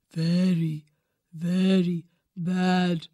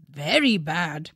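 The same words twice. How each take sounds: First: Put-on a solemn old bird; low wise owl. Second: Said in the usual way. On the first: A narrator's reading. Owl voice version.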